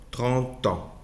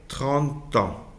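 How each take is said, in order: Both takes have the same delivery.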